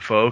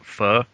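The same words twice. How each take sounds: First: The word is given an anglicized pronunciation. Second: The word is given its native pronunciation. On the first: The speaker calls it wrong. "we call it pho because we read English" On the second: The speaker calls it right. "but you pronounce it pho"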